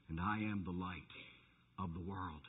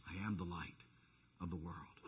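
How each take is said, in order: First: Much softer and lower, reverent; hushed solemn quote. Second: Even softer, low reverent repeat; near-hushed echo. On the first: Preacher softly repeating Jesus to the congregation. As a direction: let the words fall to a hush. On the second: Preacher echoing the verse in a hush to the church. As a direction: let it fade to almost nothing. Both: Acted.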